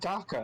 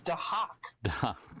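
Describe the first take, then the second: First: The name is said without the h, ending in 'ka'. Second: The name is said with the h, ending in 'hak'. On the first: Other people say it this way. The speaker calls it wrong. "Why does everybody keep saying Daka?" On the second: This is the character's real name. The speaker calls it right. "It's Dahak"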